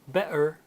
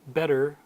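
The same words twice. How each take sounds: First: It is said in a Cockney accent. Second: It is said in an American accent. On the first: "a Cockney would uh, turn those T sounds into that glottal stop" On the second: "Or in American English"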